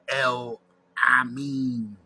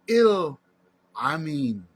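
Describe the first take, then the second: First: The first vowel sounds like 'eh'. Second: The first vowel sounds like 'ee'. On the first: The speaker calls it wrong. "You pronounce your name wrong, brother" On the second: The speaker calls it right. "So your name is Il Amin"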